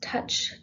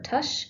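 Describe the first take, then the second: First: The word ends with a ch sound. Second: The word ends with an sh sound. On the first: "either with touch" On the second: "or just the schwa"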